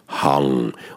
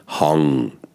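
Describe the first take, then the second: Both takes have the same delivery.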